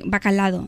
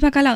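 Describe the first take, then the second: First: A d sound comes before the final o. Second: No d sound comes before the final o. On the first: The speaker calls it wrong. "por ultracorrección" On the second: The speaker calls it right. "pero es que es bacalao"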